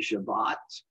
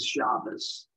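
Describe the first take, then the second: First: The word ends with a t sound. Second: The word ends with an s sound. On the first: This is how people in Israel say it. "In Israel, they say Shabbat" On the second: This is how Americans say it. "as Americans would pronounce it"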